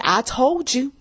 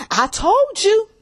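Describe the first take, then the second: First: Said in the usual way. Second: Higher, slow, drawn-out told you; higher, drawn-out gloating I told you. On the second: Shown as a demonstration. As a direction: savor every word of I told you.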